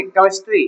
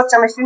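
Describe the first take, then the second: First: केमिस्ट्री said with a hard k, as kemistry; hard k sound. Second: केमिस्ट्री said with a ch, as chemistry; wrong ch sound. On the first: Teacher gives a child the right reading, केमिस्ट्री with k. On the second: Teacher shows a child the wrong reading, केमिस्ट्री with ch. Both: Shown as a demonstration. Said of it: "इसको केमिस्ट्री नहीं पढ़ेंगे".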